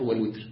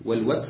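First: The w is followed by the vowel i. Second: The w is followed by the vowel a.

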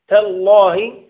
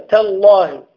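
Both takes have the same delivery.

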